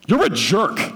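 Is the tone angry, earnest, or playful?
angry. It is said in a harsh, angry tone. The speaker is really furious. "The second, I'm furious"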